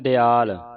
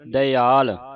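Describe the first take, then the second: First: The word begins with a short 'di' sound. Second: The word begins with 'da' then a separate 'i'. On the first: The speaker calls it wrong. "ਕਈ ਵਾਰ ਸੰਗਤਾਂ ਪੜ ਜਾਂਦੀਆਂ" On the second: The speaker calls it right. "ਈੜੀ ਦੀ ਆਵਾਜ਼ ਉਚਾਰਨ ਕਰਨੀ"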